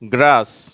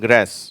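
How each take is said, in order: First: It is said in a British accent. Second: It is said in an American accent. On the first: "இதுவும் கூட British உச்சரிப்பு" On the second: "அமெரிக்கர்களுடைய உச்சரிப்பு"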